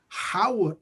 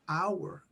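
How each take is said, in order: First: The word starts with an audible H sound. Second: The word starts with no H sound. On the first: The speaker calls it wrong. "we don't say Howard" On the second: The speaker calls it right. "the H doesn't sound"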